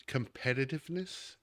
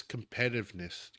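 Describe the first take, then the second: First: Competitiveness with every syllable, "com-PET-i-tive-ness"; corrected competitiveness. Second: Competitiveness with a syllable swallowed, "com-PET-iv-ness"; Southern accent trips up competitiveness, squashed short; slurred competitiveness. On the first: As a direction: redo competitiveness carefully in full. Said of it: "Sorry, Southern accent got in the way". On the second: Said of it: "Southern accent got in the way". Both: Real, not acted.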